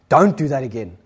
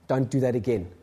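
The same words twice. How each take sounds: First: It is said with a somewhat raised voice. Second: It is said at a normal, softer volume.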